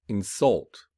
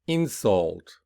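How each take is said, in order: First: "insult" with light start, strong falling second syllable; stress on second syllable. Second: "Insult" with stressed first syllable, falling after. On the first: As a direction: verb form, hit the end of "insult". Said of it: "whereas the verb will be". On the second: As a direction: noun form, lean on the start of "Insult". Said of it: "the noun will be". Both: Shown as a demonstration.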